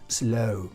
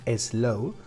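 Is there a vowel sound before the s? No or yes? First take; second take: no; yes. First: The word starts directly with the s sound. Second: An extra e vowel is said before the s. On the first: The speaker calls it right. "sino es slow" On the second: The speaker calls it wrong. "Le solemos poner una E delante. No, no lleva E delante, no es slow"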